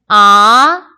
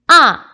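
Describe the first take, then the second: First: The pitch rises from middle to high. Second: The pitch falls sharply from high to low. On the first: "이" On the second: "사성"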